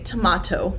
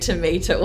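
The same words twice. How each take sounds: First: The word is said in a British accent. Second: The word is said in an American accent. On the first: This is how the book's characters say it. "Charlie and Lola would say tomato" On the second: This is how the reader says it. "but I say tomato"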